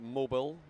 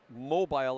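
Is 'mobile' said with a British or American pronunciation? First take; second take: American; British. First: The word is said with an American pronunciation. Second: The word is said with a British pronunciation. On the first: This is how the audience says it. "I think you guys say" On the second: This is how the speaker himself says it. "as I would say"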